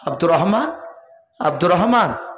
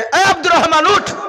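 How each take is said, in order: First: The name is called out softly. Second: The name is called out loudly.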